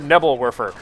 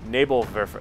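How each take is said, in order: First: It is said with an English pronunciation. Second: It is said with a German pronunciation. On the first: The speaker calls it wrong. "something abysmal like Nebs or Nebelwerfer, which is my common pronunciation" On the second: The speaker calls it right. "I will try to say it right at least once"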